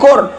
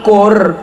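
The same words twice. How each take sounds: First: The q sound is light and thin. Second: The q sound is heavy and thick. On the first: The speaker calls it wrong. "bukan qur" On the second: The speaker calls it right. "Tafkhim tebal"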